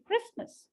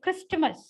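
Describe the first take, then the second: First: The t in the middle is dropped. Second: The t in the middle is pronounced. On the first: The speaker calls it right. "I say" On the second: The speaker calls it wrong. "I don't say"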